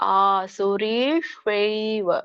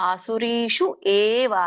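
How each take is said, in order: First: The words are run together as one. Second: The words are said as separate words. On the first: "ನೀವು ಕೂಡಿ ಹೇಳಿ" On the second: "ಬಿಡಿಸಿದಾಗ"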